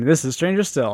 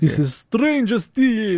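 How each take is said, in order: First: It is said in a plain, normal voice. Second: It is said in a spooky put-on voice.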